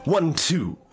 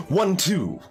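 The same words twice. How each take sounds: The two takes are said the same way.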